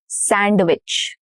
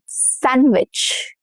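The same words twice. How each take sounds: First: The d sound is pronounced. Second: The d sound is silent. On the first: The speaker calls it wrong. "not sandwich" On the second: The speaker calls it right. "No duh"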